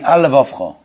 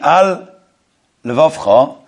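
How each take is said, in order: First: The two L sounds merge into one. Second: Both L sounds are heard separately. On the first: The speaker calls it wrong. "it sounds like you're saying only one lament" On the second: The speaker calls it right. "Instead of saying"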